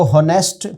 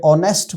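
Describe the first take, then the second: First: हॉनेस्ट said with a clear h sound at the start; हॉनेस्ट pronounced with the h voiced; wrong pronunciation of honest. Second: ऑनेस्ट with a silent h, starting on the vowel; ऑनेस्ट begun straight on the vowel; correct pronunciation of honest. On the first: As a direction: sound the h in हॉनेस्ट, as hon-est. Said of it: "आप इसको हॉनेस्ट पढ़ रहे हैं". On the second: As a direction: drop the h and say ऑनेस्ट as on-est. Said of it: "सही pronounce करते हुए ऑनेस्ट". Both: Shown as a demonstration.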